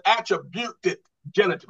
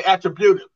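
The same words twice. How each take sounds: First: "attributed" set apart with a distinct -ed ending; stress on ATTRIBUTED. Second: "attributive" said quicker, ending in -ive; contrasted ATTRIBUTIVE. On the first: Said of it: "I didn't say attributive". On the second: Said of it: "I said attributed genitive". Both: Shown as a demonstration.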